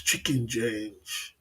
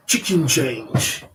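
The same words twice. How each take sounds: First: Very slow, softer "Chicken change"; slow quiet mocking "Chicken change"; savoring phrase. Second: Very slow, drawn-out "Chicken change"; slow mocking "Chicken change" with the first word stressed; savoring phrase. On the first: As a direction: drawl "Chicken change" like a catchphrase. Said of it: "Every day's a new lyrics". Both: Shown as a demonstration.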